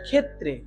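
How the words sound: It is said with Bengali pronunciation. "আমরা বাংলা এটাকে কি বলে?"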